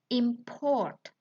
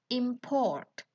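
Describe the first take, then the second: No difference in how they are said.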